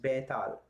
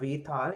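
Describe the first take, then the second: First: The word begins with a b sound. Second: The word begins with a v sound. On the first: The speaker calls it right. "it's Betal" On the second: The speaker calls it wrong. "it's not Vetal"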